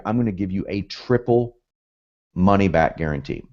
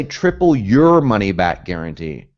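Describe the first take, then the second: First: Said in the usual way. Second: Slow, deliberate wrong version; wrong wording, slowly. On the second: Shown as a demonstration. Coach shows students the wording to avoid, slowly. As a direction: spell out the wrong phrase slowly. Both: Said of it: "Notice I don't say".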